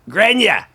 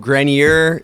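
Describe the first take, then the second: First: The name has a Boston accent pronunciation. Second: The name has a general American pronunciation. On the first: "Back in Boston, they might say" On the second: "Grenier is kind of like the American way"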